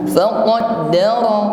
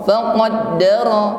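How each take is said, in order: No difference in how they are said.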